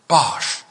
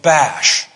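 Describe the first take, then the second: First: The vowel sounds like the one in 'cot'. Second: The vowel sounds like the one in 'cat'.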